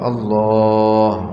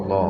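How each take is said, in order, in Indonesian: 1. Vokal setelah l kedua dipanjangkan. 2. Vokal setelah l kedua dipendekkan. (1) "Ada mad pada lam yang kedua" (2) "Kalau tanpa mad maka termasuk tahrif. Seperti sebagian mereka mengucapkan"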